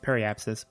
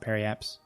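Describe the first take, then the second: First: The word ends with the full syllable 'sis'. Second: The word ends early without the syllable 'sis'. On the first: "It's periapsis" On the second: "but I pronounce it periaps"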